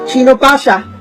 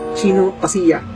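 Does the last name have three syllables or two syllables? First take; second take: two syllables; three syllables. First: The last name is said with two syllables. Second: The last name is said with three syllables. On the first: The speaker calls it wrong. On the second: The speaker calls it right.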